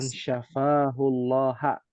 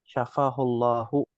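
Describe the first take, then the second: First: The word ends with an 'a' vowel. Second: The word ends with an 'u' vowel. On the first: He heals Allah. The speaker calls it wrong. "Ini bahaya" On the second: Allah heals him. The speaker calls it right. "harokatnya dhammah"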